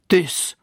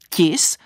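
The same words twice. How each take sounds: First: The first consonant is hard, not palatalized. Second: The first consonant is soft, palatalized. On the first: The speaker calls it wrong. "a ne tvrdě. Tis. To teda ne" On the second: The speaker calls it right. "Skutečně se vyslovuje měkce tis"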